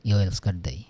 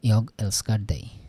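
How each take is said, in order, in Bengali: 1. প্রথম শব্দের শেষে কোনো g ধ্বনি শোনা যায় না। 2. প্রথম শব্দের শেষে একটা স্পষ্ট g ধ্বনি শোনা যায়। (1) "যারা একটু দ্রুত উচ্চারণ করে, দ্রুত কথা বলে, তাদের কথাতে এটা মনে হয় ইয়" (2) "যারা একটু ধীরে বলে ইয়ক শোনা যায়"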